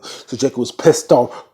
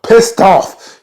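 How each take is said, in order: First: Said in the usual way. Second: PISSED OFF punched high and loud; emphatic repeat. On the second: Real, not acted. Telling how mad Jacob was, loud emphasis. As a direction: hit "Pissed off" hard.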